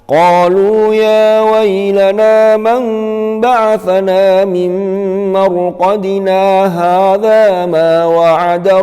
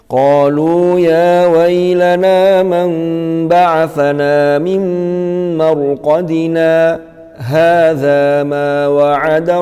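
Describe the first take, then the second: First: Marqadina runs straight into hadza without pausing. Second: A brief pause without breath follows marqadina. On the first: The speaker calls it wrong. "Yang tidak boleh itu yang seperti ini" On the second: The speaker calls it right. "Kalau sakta"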